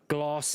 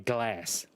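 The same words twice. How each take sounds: First: It is said with a South African accent. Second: It is said with an American accent. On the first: This is how the speaker used to say it. "I don't say glass anymore" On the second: This is how the speaker says it now. "I say glass"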